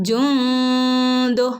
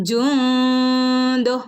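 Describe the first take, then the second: The two takes are said the same way.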